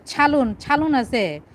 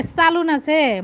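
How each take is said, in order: First: ছালুন said with a "chh" start, the wrong way; mock the pretenders: ছালুন with an aspirated ছ; mimicking fake Old Dhaka speakers saying ছালুন; fake Old Dhaka ছ sound. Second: চালুন said with a plain unaspirated চ; real Old Dhaka pronunciation. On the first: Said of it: "ঢাকাইরা ছালুন বলে না". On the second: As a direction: show the true Old Dhaka চালুন, clean "ch". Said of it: "বলে". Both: Shown as a demonstration.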